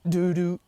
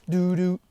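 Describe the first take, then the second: No difference in how they are said.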